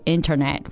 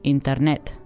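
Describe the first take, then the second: First: It is said with an English accent. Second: It is said with a Spanish accent.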